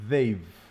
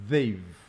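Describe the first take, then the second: First: The two words are contracted into one syllable. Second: The two words are contracted into one syllable.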